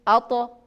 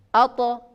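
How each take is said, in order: No difference in how they are said.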